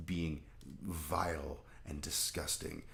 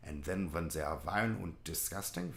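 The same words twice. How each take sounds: First: Slow Southern preacher disgust; mock Southern Baptist. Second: Put-on German accent; mock German. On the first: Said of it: "evil Southern Baptists". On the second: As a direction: switch into a caricature German accent. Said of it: "the filthy Germans".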